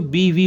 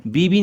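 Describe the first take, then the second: First: बीवी as bee-vee; बीवी with वी at the end; correct v sound. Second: बीबी with b in both syllables; बीबी with ब in place of व; wrong double b. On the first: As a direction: switch to v on the second syllable of बीवी. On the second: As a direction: say बीबी as bee-bee, lips closed twice. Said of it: "नहीं होता बच्चों". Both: Shown as a demonstration.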